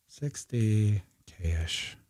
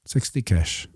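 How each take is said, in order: First: Slow, soft and stretched; drawn-out murmur. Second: Said in the usual way. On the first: Real, not acted. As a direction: murmur it slowly while busy. Typing in the label slowly.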